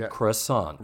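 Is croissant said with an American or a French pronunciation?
American. It is said with an American pronunciation. "I American, I say croissant"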